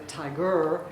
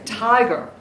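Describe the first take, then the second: First: "tiger" stressed on the last syllable, ti-GER; "tiger" said ti-GER, as a wrong example. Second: Said in the usual way. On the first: Shown as a demonstration. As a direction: push the weight onto the "ger" of "tiger". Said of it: "We don't say tiger". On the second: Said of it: "we say tiger".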